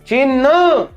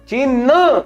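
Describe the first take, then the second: The two takes are said the same way.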